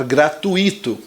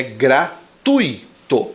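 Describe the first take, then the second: First: Gratuito stressed on i, gra-tu-I-to; wrong pronunciation. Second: Gratuito stressed on tu, gra-TUI-to; correct pronunciation. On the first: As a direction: demo the mistake: gratuito with the stress on i. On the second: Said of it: "pronúncia correta é gratuito". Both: Shown as a demonstration.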